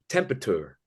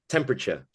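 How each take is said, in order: First: The word has an unusual, imitated pronunciation. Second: The word has the ordinary standard pronunciation. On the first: This is how the imitated person said it. "he said things like temperature" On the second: This is how people usually say it. "instead of temperature"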